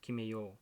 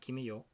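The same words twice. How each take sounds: First: The final vowel of yo is long. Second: The final vowel of yo is short. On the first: The speaker calls it right. "You have to have the extension at the end" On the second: The speaker calls it wrong. "Not kime yo"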